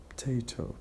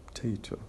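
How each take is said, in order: Both takes have the same delivery.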